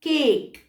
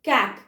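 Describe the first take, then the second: First: The vowel is a long 'ay' as in day. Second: The vowel is a short 'a' as in cat. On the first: The final E lengthens the vowel. "ई की वजह से वो sound हो जाएगा केक" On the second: This is how it would sound without the final E. "ई को silent कर दिया जाए तो क ए क"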